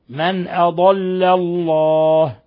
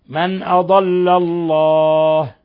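No difference in how they are said.

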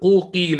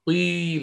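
First: A full u vowel comes before a separate i. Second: A brief u sound glides straight into the i. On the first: The speaker calls it wrong. "لن تقول قوقيل هكذا" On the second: The speaker calls it right. "بل أنت ستقول هكذا قيل قيل، يعني ستبدأ وتنطلق من ضم"

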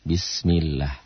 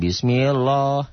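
First: The 'l' in Allah sounds thin and light. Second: The 'l' in Allah sounds thick and heavy. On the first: The speaker calls it right. "lafal Allahnya dibaca tipis, tarkik" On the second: The speaker calls it wrong. "Jangan bismillah, jangan"

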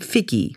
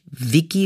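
First: The name begins with a hard f sound. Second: The name begins with a soft v sound. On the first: "mit einem doppelten F" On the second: "nicht Vicky Leandros"

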